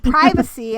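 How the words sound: It is said with an American English pronunciation. "It's privacy in American English"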